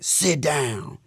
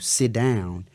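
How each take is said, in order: First: It is said in a harsh, commanding tone. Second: It is said in a calm, plain tone. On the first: It feels like a threatening order from authority. "you might feel like I'm saying" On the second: A simple request is being made. "so I might tell you"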